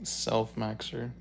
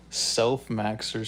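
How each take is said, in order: First: Self-maxer drawn out slowly with a rising end; savoring the word. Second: Self-maxer said slowly, every syllable drawn out. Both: Shown as a demonstration. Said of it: "That's funny".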